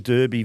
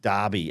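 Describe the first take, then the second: First: The first syllable sounds like 'Dur' in Durban. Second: The first syllable sounds like 'Dar'. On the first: This is the local name for the match. "Derby pronounced like Durban" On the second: This is how the rest of the world says it. "as it's called everywhere else in the world"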